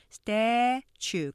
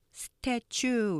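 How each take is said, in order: First: "statue" with STA long and loud, chue weaker; "statue" slowly in two syllables, strong then weak; stress on first syllable. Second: "statue" as Korean seu-tae-chu; "statue" in three syllables with no strong front stress; three-syllable mispronunciation. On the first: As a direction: hit the front of "statue" hard and stretch it. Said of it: "앞에 강조하시면서". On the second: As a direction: add a vowel after the s of "statue". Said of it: "우리가 이렇게 삼음절로 발음하기 쉽지만". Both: Shown as a demonstration.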